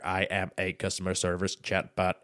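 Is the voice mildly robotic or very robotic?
very robotic. The voice sounds strongly robotic.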